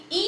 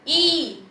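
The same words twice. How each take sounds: First: ई short and light; short gentle i. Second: ई drawn out and strong; long i. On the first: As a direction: say ई briefly and gently. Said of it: "धीरे से पढ़ेंगे". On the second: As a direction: stretch ई long. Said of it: "ये बड़ी ई है तो ई". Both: Shown as a demonstration.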